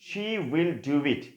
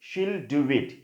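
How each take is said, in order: First: Both words 'she will' are said in full. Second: 'She will' is merged into one syllable 'she'll'. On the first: "আমরা যদি শি দিয়ে বলি" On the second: "বলবো কি?"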